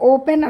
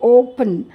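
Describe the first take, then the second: First: The last syllable has a full 'e' vowel. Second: The last syllable has a light, reduced vowel. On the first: The speaker calls it wrong. "ఓపెన్ అనకూడదు" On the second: The speaker calls it right. "అది లైట్గా పలకాలి"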